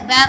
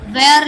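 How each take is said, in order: First: वेर said as one short syllable, wair; the correct वेर, one clipped syllable; correct pronunciation. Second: वेयर said as two syllables, way-er; wrong pronunciation. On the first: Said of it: "वेर होता है". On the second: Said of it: "वेयर नहीं होता है". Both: Shown as a demonstration.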